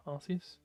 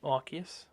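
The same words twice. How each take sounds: First: Arceus with an S sound, AR-see-us, questioning; soft-c pronunciation. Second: Arceus with a K sound, AR-kee-us, questioning; hard-c pronunciation. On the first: Streamer unsure of the game's name, soft-c pronunciation. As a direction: say Arceus as "ar-see-us", softer and rising. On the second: Streamer unsure of the game's name, hard-c pronunciation. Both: Shown as a demonstration. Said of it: "Pokemon Legends Arceus".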